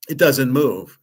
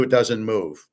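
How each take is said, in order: First: Louder, put-on voice of a fussy coworker; mocking the lady at work. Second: Said in the usual way. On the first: Mimicking the lady at work, a bit louder. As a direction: parrot her like a know-it-all colleague. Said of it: "Just like the lady at work".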